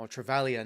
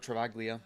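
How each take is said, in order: First: "Travaglia" with a silent G, like tra-VAL-ya; "Travaglia" with gl softened to plain l. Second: "Travaglia" with a hard g, like tra-VAG-lee-a; "Travaglia" misread with a hard g; sounded G. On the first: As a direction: say "Travaglia" with no g sound. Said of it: "there's no G in the, uh, or silent G". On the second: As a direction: pronounce the g before the l in "Travaglia". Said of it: "not Travaglia". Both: Shown as a demonstration.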